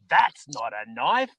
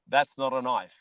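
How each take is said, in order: First: It is said imitating Crocodile Dundee. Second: It is said in his plain voice.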